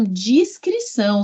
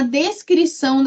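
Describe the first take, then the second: First: Discrição with the first syllable DIS, an i sound, drawn out; clear DIS. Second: Descrição with the first syllable DES, an e sound; clear DES. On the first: Teacher contrasting homonyms, sounding DIS slowly. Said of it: "seja discreto". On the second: Teacher contrasting homonyms, sounding DES clearly. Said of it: "Então, ele descreveu mesmo". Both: Shown as a demonstration.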